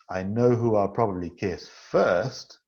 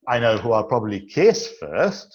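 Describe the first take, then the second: First: The word first carries the main stress. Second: The word kiss carries the main stress. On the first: One person gets kissed before the others. "there's somebody who will get the first kiss" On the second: Kissing comes before hugging or shaking hands. "This means I'll kiss them before I hug them or before I shake their hand"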